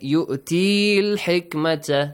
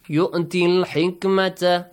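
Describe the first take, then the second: First: The vowel before al-hikmata is held long. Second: The vowel before al-hikmata is cut short. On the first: The speaker calls it wrong. "Don't read it" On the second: The speaker calls it right.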